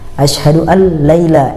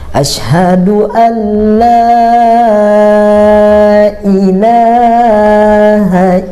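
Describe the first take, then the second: First: The 'la' sound is kept short. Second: The 'la' sound is drawn out long. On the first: The speaker calls it wrong. "ini yang salah" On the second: The speaker calls it right. "la-nya dipanjangin"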